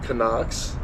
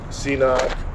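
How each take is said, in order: First: The name begins with a 'ka' sound. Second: The name begins with a 'see' sound. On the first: Some other people say it this way. "I heard some people call them Canucks" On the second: This is the speaker's usual way of saying it. "I've always pronounced it C knock"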